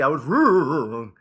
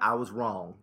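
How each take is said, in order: First: It is said in a Fonzie impression. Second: It is said in his normal voice.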